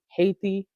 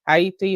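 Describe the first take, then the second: First: It is said with the usual English pronunciation. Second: It is said with the native-style pronunciation.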